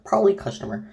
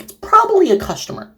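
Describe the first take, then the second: First: Said in the usual way. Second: High, sing-song mock innocence; mock naive. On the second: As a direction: play the clueless one, pitched up. Mocking the character's naivety.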